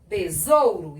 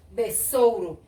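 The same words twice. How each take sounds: First: "besouro" with a voiced z; pronúncia com Z. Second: "besouro" with an unvoiced s; pronúncia com S. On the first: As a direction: say "besouro" as be-zou-ro. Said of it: "eu falo besouro". ("besouro" com som de Z) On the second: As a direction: say "besouro" as be-ssou-ro. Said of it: "Eu não falo besouro". ("besouro" com som de S) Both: Shown as a demonstration.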